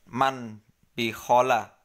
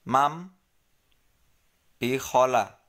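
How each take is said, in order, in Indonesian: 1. Bunyi sengau sebelum b adalah bunyi n. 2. Bunyi sengau sebelum b adalah bunyi m. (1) "Bacanya bukan" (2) "tetapi mam bi khola"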